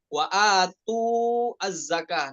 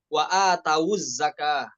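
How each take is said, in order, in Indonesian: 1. Huruf w tanpa harakat dengan jeda sebelum zakah. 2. Huruf w membawa harakat u yang menyambung ke zakah. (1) "bukan wawunya bukan jadi sukun"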